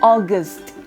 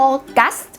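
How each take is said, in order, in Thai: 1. พยางค์ที่สองเป็นสระ schwa ที่ออกเสียงเบา 2. ทั้งสองพยางค์ออกเสียงเต็มและชัดเจน (1) "เวลาออกเสียงต้องอ่านว่า" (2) "มันจะไม่ใช่ แบบนั้นชัดทั้ง2 พยางค์ไม่เอานะคะ"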